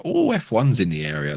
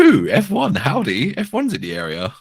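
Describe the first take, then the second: First: Bad American accent, barely there; a weak stab at an American twang; terrible American accent. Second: Higher, louder hammed-up American twang on the first words; second try at American accent. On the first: Co-host mocks new F1 fans in a bad American accent. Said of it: "that was a terrible American accent". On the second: Urged by co-host, retrying a hammed-up American accent. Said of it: "still too English".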